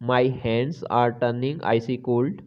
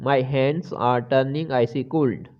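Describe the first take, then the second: No difference in how they are said.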